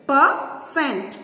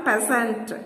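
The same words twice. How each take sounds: First: "percent" split as per, cent; syllable by syllable. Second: Said in the usual way. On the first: Shown as a demonstration. Teacher counting syllables for children, "percent" broken in two. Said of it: "two syllables".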